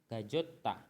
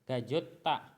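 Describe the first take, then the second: First: The middle consonant is a 'j' sound. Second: The same.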